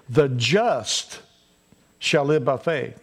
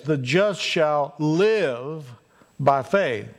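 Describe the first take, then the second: First: Preacher spotlighting "The just"; stress on the just. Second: Drawn out slowly, weight on "shall live" and not on "The just"; slow down and press "live" home; lingering preacher emphasis on "live"; stress on live. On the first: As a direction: lean hard on "The just", then ease through "shall live by faith". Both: Shown as a demonstration. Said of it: "the emphasis is on this".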